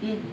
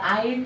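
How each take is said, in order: First: The vowel is a short plain 'i' sound. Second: The vowel glides like 'ai' as in 'eye'. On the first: The speaker calls it right. "cing ini bacanya kumaha ieu? In" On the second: The speaker calls it wrong. "Tidak ain kan ya?"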